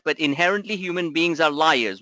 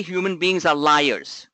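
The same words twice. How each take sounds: First: "inherently" punched, rest said at normal pace; stress on INHERENTLY. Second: "are" leaned on, every word slow and weighted; slow stress on ARE. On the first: Coach to traders, punching "inherently". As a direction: hit "inherently" hard and let the rest fall. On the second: Coach to traders, stressing "are" slowly. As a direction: spell out "human beings are liars" slowly, hitting "are". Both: Shown as a demonstration.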